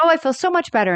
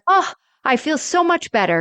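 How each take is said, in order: First: Higher, sweet mock relief as she repeats it; a light echo of a cheerful Rose; quoting Rose, relieved. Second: Higher, sweet mock relief; lightly voiced cheerful Rose; quoting Rose, relieved. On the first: Host repeating Rose's line, lightly voiced. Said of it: "She's like". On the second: Host retelling Rose cheering up, lightly voiced. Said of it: "she's like".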